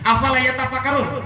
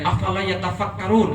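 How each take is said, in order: First: It is said sharply, as a rebuke. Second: It is said softly and gently. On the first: It is a pointed reproach for not thinking. The speaker calls it right. "Ini serius, itu sindiran dari Allah" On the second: It is a mild, neutral question. The speaker calls it wrong. "bacanya agak halus"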